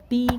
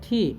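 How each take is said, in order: First: It starts with a plain t sound. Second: It starts with a breathy th-like sound. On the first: The speaker calls it wrong. "टी को क्या बोलेंगे" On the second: The speaker calls it right. "ट और ठ का sound मिला के लेंगे"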